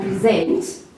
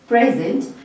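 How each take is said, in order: First: The verb "present", pre-ZENT; weight on the second syllable of "present"; slow, contrastive pre-ZENT; stress on second syllable. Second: The noun "present", PRE-zent; weight on the first syllable of "present"; stress on first syllable. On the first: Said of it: "emphasis and stress on the second syllable". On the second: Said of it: "stress on the second syllable". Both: Shown as a demonstration.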